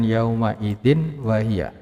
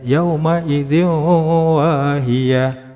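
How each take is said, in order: First: The n sound is kept before the w. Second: The n sound merges into the following w. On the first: The speaker calls it wrong. "Tidak boleh dibaca dengan yauma idzin wahiyah" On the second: The speaker calls it right. "cara bacanya adalah yauma idzin wahiyah"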